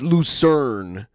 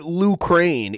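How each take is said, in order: First: The second part sounds like 'sern'. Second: The second part sounds like 'crane'. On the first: The speaker calls it right. "It's Lucerne is how you say it" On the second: The speaker calls it wrong. "he calls it Lucrane"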